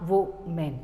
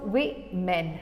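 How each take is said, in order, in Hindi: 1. पहला अक्षर 'wo' जैसा सुनाई देता है। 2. पहला अक्षर 'wi' जैसा सुनाई देता है। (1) "नॉट वो मेन" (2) "सो वे मेन"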